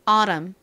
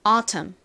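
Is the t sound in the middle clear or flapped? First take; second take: flapped; clear. First: The middle t is softened into a flap. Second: The middle t is a clear, crisp t. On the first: "미국식 발음으로 t에 살짝 버터를 발라서" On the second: "t를 굴리지 않고"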